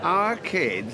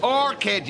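First: Put-on "Our kid" as two words, asked back; misheard name. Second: "Orchid" as one word, higher and firm; corrected name. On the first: Repeating the lads' mishearing back to them, questioning "Our kid". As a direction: echo "Our kid" as if puzzled. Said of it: "Orchid, you daft beggar". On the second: Correcting the lads' mishearing with a firm, high "Orchid". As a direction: set them straight: "Orchid". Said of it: "you daft beggar". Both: Shown as a demonstration.

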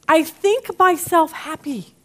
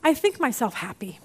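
First: "I think myself happy" said slowly, each word leaned on; slow, weighty repeat. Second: Said in the usual way. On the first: Shown as a demonstration. Preacher repeats Paul's words to the congregation, slow and emphatic. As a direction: let "think" land with weight.

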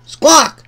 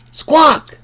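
The two takes are said the same way.

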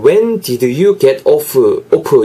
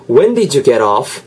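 First: "When did you get off" read syllable by syllable, Korean style; wrong pronunciation. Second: "did you" blended into didju, "get off" as ger-off; linked pronunciation. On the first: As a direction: spell out "off" flatly like a beginner. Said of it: "이렇게 하실 분들이". (초보자처럼 또박또박 읽는 "When did you get off") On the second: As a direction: glide it all in one breath. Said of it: "발음이 완전히 다르죠". (연음으로 "when did you get off") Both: Shown as a demonstration.

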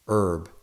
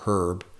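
First: Herb without the H, "erb"; silent H. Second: Herb with the H pronounced; sounded H. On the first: Offering viewers one way to say herb, silent H. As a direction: say herb starting on the vowel, H dropped. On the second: Offering viewers the other way to say herb, sounded H. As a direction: breathe a clear H at the start of herb. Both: Shown as a demonstration. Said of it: "whatever you say".

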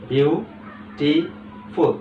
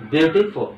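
First: Very slow beautiful in three separate beats, "বিউ, টি, ফুল"; split into syllables. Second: Said in the usual way. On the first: Shown as a demonstration. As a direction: pause after each syllable of beautiful. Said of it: "তিনবারে কি করলাম?". (Beautiful তিন ভাগে থেমে থেমে, খুব ধীরে) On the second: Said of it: "অর্থাৎ তিনভাবে আমরা".

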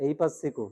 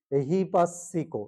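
First: এই পাসিকো with ei in place of ehi; wrong pronunciation demo. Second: এহি পাসিকো with a clear h in এহি; correct pronunciation, slow. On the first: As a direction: show the common mistake এই পাসিকো. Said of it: "অনেকে কি বলে ফেলে?". (ভুল উচ্চারণ এই পাসিকো) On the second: (সঠিক উচ্চারণ এহি পাসিকো) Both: Shown as a demonstration.

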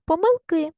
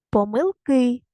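First: Said in the usual way. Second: Помилки with a drawn-out final КИ; stress on last syllable. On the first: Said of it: "Поставте наголос". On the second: Shown as a demonstration. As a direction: stretch the ending of Помилки. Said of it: "на останній склад". (Помилки з протяжним наголосом на КИ)

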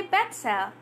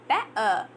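First: "better" with the T crisply sounded; full T in better. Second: "better" with the T replaced by a catch; glottal T in better. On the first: Teacher gives learners the proper form first, "better" with a clear T. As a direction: pronounce the T in "better". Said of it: "it becomes better". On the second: Teacher shows the glotted form to learners, "better" with no T. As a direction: drop the T inside "better". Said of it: "they glot their T sound". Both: Shown as a demonstration.

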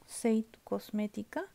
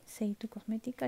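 First: Said in the usual way. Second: Soft, voiceless repeat of the name; whispered. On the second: Real, not acted. Vlogger repeats the brand to viewers, whispered. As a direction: whisper the brand name under her breath.

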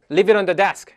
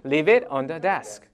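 First: Louder cue at normal speed; louder model. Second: Very slow, each word spaced; slow model. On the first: Teacher giving the loud cue to repeat. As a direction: say it out clearly for the class. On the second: Teacher modelling the phrase slowly for students. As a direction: lay it out slowly for learners. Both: Shown as a demonstration. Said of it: "시작".

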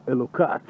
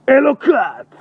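First: Said in the usual way. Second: High, sudden full-voiced shout. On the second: Real, not acted. Night walker calling out in the dark street, shouting. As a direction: yell it out at the top of your voice. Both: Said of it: "מה אתה צועק".

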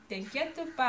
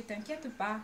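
First: "t'inquiète pas" with a light southern French twang; southern French accent. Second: Said in the usual way. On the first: Shown as a demonstration. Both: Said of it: "avec mon accent du sud".

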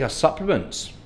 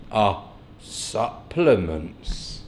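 First: Said in the usual way. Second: Very slow, softer, lower "Our supplements"; playfully slow-motion "Our supplements", pausing after "Our"; drawn out. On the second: Pretend. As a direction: stretch out "Our supplements" syllable by syllable. Repeats the words with mock slowness.

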